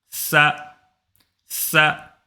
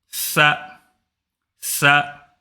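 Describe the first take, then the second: Both takes have the same delivery.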